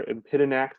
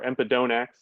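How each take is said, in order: First: Empidonax as em-PID-uh-nax; alternative pronunciation. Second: Empidonax with a long DOH in the third syllable; first pronunciation variant. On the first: Birding guide offering the other way to say empidonax, em-PID-uh-nax. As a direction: empidonax with an unstressed, reduced third syllable, em-PID-uh-nax. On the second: Birding guide offering one way to say empidonax, em-pih-DOH-nax. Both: Shown as a demonstration. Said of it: "depending on how you pronounce it".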